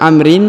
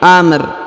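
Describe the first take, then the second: First: The word ends with an added '-in' sound. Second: The word stops short on the final 'r'. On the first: The speaker calls it wrong. "bukan amrin" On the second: The speaker calls it right. "tapi amr"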